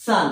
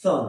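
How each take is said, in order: First: সান with open a; সান, vowel unrounded; correct pronunciation. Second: সন with rounded o; সন with back, rounded vowel; common mispronunciation. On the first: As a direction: say সান as "sun". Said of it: "কিন্তু হবে". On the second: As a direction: say সন as "sawn". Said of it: "কি বলি?". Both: Shown as a demonstration.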